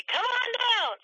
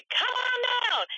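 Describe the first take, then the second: First: Much higher, big announcer call of "Come on down"; game-show announcer hamming it up; radio announcer. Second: Much higher, slowly stretched "Come on down"; hammed-up radio announcer stretching every word; drawn-out announcer. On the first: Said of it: "that you hear them do". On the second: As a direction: draw out "Come on down" like a radio host. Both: Shown as a demonstration.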